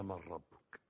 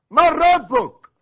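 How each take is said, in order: First: Low, soft reading of a question; quiet recitation. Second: High, drawn-out thunderous shout; angels' shouted interrogation. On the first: Retold or imitated. Preacher first quoting the grave angels' question, quiet recitation. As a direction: recite it softly and low, without force. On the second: Acted. Angel seizing the dead man in the grave, shouted interrogation. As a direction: roar the question slowly, as if shaking someone by the shoulders. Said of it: "ما تزعقش"، هو ده زعيق؟".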